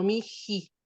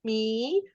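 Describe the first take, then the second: First: "mi ji" slowly, with an aspirated j between the vowels. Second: "mi" with a long, slow i, no h; unaspirated vowels. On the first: Teacher shows student the easier version, "mi ji" with aspirated h. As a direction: break "mi ji" with a breath of j. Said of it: "generalmente se hace esa aspiración". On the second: Teacher shows student the hard version, "mi" without aspiration. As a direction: draw out "mi" as two joined i vowels. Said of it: "tan difícil pronunciar el mi". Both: Shown as a demonstration.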